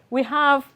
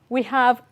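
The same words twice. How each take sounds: Both takes have the same delivery.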